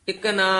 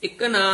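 The two takes are said the same way.

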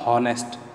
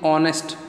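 First: The word begins with a sounded h. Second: The word begins with a vowel sound, no h. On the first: The speaker calls it wrong. "not honest" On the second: The speaker calls it right. "We are pronouncing it honest"

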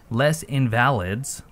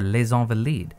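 First: The name is pronounced the English way. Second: The name is pronounced the French way. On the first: The speaker calls it wrong. "Not Les Invalides, like I apparently said at the end of the last video" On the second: The speaker calls it right. "I looked that up right before I hit record"

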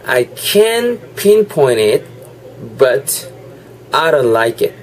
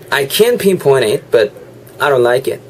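First: It is said more slowly. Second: It is said at normal speed.

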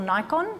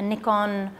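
First: Nikon is said with the American pronunciation. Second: Nikon is said with a non-American pronunciation. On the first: "or Nikon for our Americans" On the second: "I always say it wrong"

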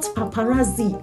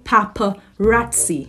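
First: The consonant before the last vowel is a plain z sound. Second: The consonant before the last vowel is a ts sound. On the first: The speaker calls it wrong. "It is not paparazzi" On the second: The speaker calls it right. "You are to say paparazzi"

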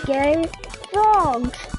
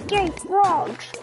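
First: The phrase is drawn out and said slowly. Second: The phrase is said at a normal speed.

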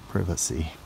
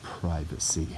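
First: The word is said in a British accent. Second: The word is said in a non-British accent.

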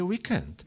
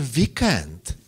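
First: Weekend is pronounced the English way. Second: Weekend is pronounced with Czech sounds. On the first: The speaker calls it right. "Správně je weekend" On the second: The speaker calls it wrong. "Vy říkáte weekend"

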